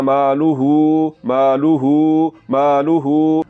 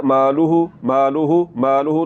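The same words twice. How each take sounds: First: "मालूहू" slow with a sustained "hoo"; lengthened final hu. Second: "मालूहू" with a short final "hu"; don't hold the end of "मालूहू"; unlengthened final hu. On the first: Teacher drills the rule, long-held ending on मालूहू. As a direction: stretch the final syllable of "मालूहू". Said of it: "इसको लंबा करना है". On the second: Teacher repeats the mistake, short last vowel in मालूहू. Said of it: "ये गलत है". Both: Shown as a demonstration.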